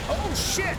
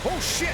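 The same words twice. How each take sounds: First: High, drawn-out fearful scream; panicked shriek. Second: High shrieking cry; panicked yelp. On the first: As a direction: scream it in terror. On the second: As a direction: yelp in sudden fright. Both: Real, not acted. Thresher Maw attack.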